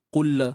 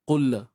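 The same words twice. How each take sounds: No difference in how they are said.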